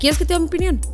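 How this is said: The question sounds gentle and sincerely offered. The speaker is kindly offering an opinion. The speaker calls it right. "No, es"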